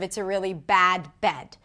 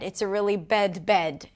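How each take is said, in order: First: The two words are said with different vowels. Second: Both words are said with the same vowel. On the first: The speaker calls it right. "instead of" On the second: The speaker calls it wrong. "you might want to say both in the same way"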